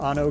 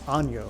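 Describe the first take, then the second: First: The middle consonant is a plain n sound. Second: The middle consonant is a Spanish ny sound.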